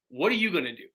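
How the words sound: It sounds accusing and pointed.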